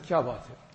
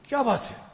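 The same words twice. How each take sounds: First: It sounds gentle and caring. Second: It sounds anxious and alarmed. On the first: Asking a distressed person what is wrong. "he's worried, he's some distress. So I asked him, what's wrong, bhai?" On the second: Anxiously asking what happened after an accident. "there was some accident or something, and I'm worried, but what happened?"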